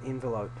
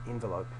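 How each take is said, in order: The two takes are said the same way.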